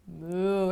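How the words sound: It sounds angry and forceful.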